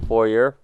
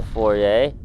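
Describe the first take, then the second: First: Foyer said FOR-yer; alternative pronunciation. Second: Foyer said FOR-ay, drawn out; French-style foyer. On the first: Gamer unsure of the word, foyer said as FOR-yer. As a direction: end foyer on "yer" with a sounded r. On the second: Gamer finding the room, foyer said as FOR-ay. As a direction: end foyer on a rising "ay", no r. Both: Shown as a demonstration. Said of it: "However it's pronounced".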